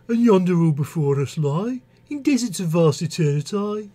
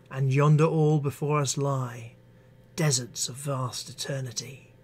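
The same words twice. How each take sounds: First: Verse in a Birmingham accent; Brummie accent. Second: Said in the usual way. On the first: Shown as a demonstration. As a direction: read it as a Brummie would. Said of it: "apologies to all Brummie poets". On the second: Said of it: "works actually better in a Birmingham".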